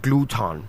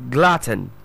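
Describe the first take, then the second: First: "gluton" as gloo-ton, both vowels full; wrong pronunciation. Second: "Glutton" with short uh, stressed first syllable; correct pronunciation. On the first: Teacher showing what to avoid, mispronounced. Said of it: "All right, not gluton". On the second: Teacher drilling one more time, careful pronunciation. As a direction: say "Glutton" like button. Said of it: "And that's pronounced as". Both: Shown as a demonstration.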